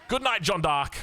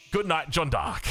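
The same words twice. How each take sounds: First: A sudden gasp, then a shocked farewell; stunned caster's farewell; gasped good night. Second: Said in the usual way. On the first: Real, not acted. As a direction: catch your breath at the elimination, then say goodnight. Player just eliminated.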